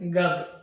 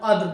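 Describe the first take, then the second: First: The word begins with a g sound. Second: The word begins with a k-like sound. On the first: This is the regional form. "আঞ্চলিক উচ্চারণ হবে" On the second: This is the form used in the Quran. "এই জন্য আমি কদর বলছি"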